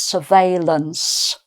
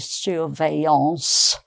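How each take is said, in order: First: It is pronounced a half-English way. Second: It is pronounced the French way. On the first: "a sort of semi French English mixture" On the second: "with a proper French pronunciation"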